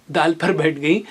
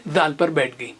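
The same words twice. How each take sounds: The two takes are said the same way.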